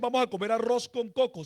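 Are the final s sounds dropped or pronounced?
pronounced. The final s sounds are fully pronounced. This is the standard pronunciation. "ellos no dicen"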